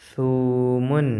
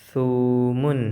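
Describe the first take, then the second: The two takes are said the same way.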